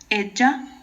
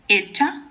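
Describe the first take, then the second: First: The middle consonant sounds like dj. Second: The middle consonant sounds like ch. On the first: "ou D J" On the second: "pode ser com C H"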